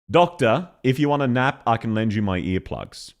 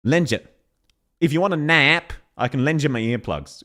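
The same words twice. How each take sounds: First: Natural Aussie delivery, relaxed vowels; proper Australian accent. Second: Mock Australian with vowels too sharp; imitating her Aussie attempt. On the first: Aussie streamer demonstrating the real way, in a natural Australian accent. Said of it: "That is how an actual Aussie would say it". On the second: Streamer mimicking the voice actress's attempt, mildly mocking Australian accent. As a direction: copy the non-Aussie's overly sharp take. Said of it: "is more how she's saying it". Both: Shown as a demonstration.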